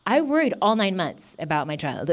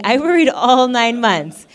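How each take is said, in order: First: Said in the usual way. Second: Higher, louder and slow; emphatic repeat. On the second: Real, not acted. Mother insisting to the congregation, emphatic and loud. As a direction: lean hard on every word.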